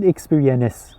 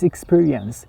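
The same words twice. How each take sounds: First: The ending sounds like a separate 'nis' syllable. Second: The ending is a nasal 'ns' sound. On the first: The speaker calls it wrong. "It's not experience" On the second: The speaker calls it right. "It's experience"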